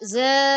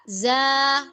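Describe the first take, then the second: First: The vowel is closed and narrow. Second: The vowel is open and wide. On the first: The speaker calls it wrong. "enggak ze" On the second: The speaker calls it right. "Suara tidak terkumpul, harus terbuka"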